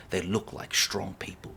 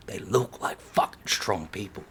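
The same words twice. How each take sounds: First: Said in the usual way. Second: Hushed whisper, breathy and low. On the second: Shown as a demonstration. Ranting about ancestors, drops to a whisper. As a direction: lean in and whisper it like a secret.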